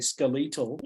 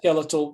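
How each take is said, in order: First: It is said with an Australian pronunciation. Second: It is said with an American pronunciation. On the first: "some of the Aussies say skeletal" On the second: "Americans don't say skeletal. they say skeletal"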